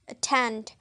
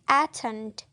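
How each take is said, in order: First: The first vowel is reduced to a schwa. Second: The first vowel is a full, clear vowel. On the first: The speaker calls it right. "If in a weak syllable" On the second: The speaker calls it wrong. "If in a strong syllable"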